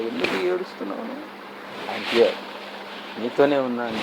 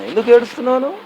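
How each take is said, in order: First: Much softer, lower, tender reassurance; tender God. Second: God asking, raised. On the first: God gently telling the weeping woman he is here, soft. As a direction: hush it like a comforting presence. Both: Acted.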